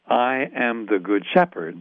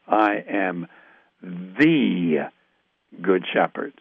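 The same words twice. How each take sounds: First: The stress falls on Good Shepherd, unmarked. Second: The stress falls on the word the. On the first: A shepherd figure is described in general. The speaker calls it wrong. "I don't think we should read it that way" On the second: It is the specific, long-promised shepherd. The speaker calls it right. "I think we should read it"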